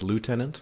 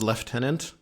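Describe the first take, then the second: First: The first syllable is said as 'loo'. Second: The first syllable is said as 'lef'. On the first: This is the everyday local pronunciation. "normal people style is lieutenant" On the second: This is the British-style broadcast pronunciation. "As C B C style is lieutenant"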